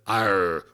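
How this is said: The final R is pronounced, West Country style.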